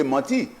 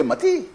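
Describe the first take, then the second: First: Said in the usual way. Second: "Mati" jumped up high, mimicking; mocking the leader. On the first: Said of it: "So he say". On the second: Mimicking his leader's high, mocking Mati. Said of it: "But his leader say".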